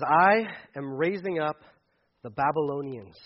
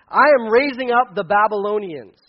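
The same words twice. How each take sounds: First: Said in the usual way. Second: Put-on "I am raising up the Babylonians" said louder with weight on "I"; emphatic reread. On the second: Shown as a demonstration. Preacher rereading God's announcement to the congregation, emphatic. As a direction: land hard on "I" and "Babylonians". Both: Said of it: "well, let me just".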